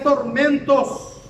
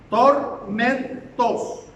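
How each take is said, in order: First: Said in the usual way. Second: "tormentos" broken into slow, separate syllables; emphatic syllables. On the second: Real, not acted. Preacher drives the verse's word home, "tormentos" slowly split up.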